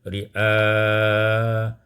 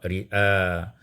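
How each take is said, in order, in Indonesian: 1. Vokal akhir ditahan dengan panjang sedang. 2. Vokal akhir hanya ditahan sebentar. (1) "kemudian dibaca dengan tawassut" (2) "dibaca dengan qasar"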